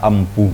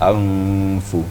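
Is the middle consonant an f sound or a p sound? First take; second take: p sound; f sound. First: The middle consonant is a closed p sound. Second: The middle consonant is a breathy f sound. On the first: The speaker calls it wrong. "Jangan baca ampu ya" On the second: The speaker calls it right. "seperti membaca F ya, F"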